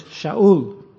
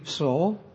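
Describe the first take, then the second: First: Shaul said slowly with a clear sh, SHAH-ool; Hebrew Shaul. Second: Saul with a plain s sound, said softly; Greek Saul. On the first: Preacher teaching the congregation the Hebrew name: slow, careful Shaul. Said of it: "But in the Hebrew". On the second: Preacher setting the Greek Saul against the Hebrew: soft, plain Saul. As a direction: say Saul with a hissed s, no sh. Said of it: "in the Greek". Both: Shown as a demonstration.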